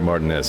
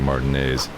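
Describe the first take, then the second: First: The name ends with a sound like the letter S. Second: The name ends with a sound like 'ays'. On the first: It follows the spelling seen in the game. "I'm still gonna keep pronouncing it Martin S" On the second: Most other people say it this way. "everybody else is saying Martin A's"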